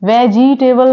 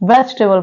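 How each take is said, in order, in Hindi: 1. एक अतिरिक्त "e" स्वर ध्वनि बोली जाती है। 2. "e" साइलेंट है और बोली नहीं जाती। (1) "वेजिटेबल नहीं पढ़ा जाता" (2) "वेजिटेबल पढ़ा जाता है"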